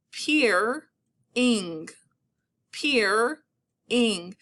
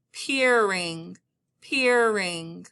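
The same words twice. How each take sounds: First: PEER-ING with a clear pause after "peer"; stop mid-word. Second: PEERING run together, r carried into the ending; drawn-out word. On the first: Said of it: "stop right after I hear that sound". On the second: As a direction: say "peering" long, without a break. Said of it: "depending on how I say". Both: Shown as a demonstration.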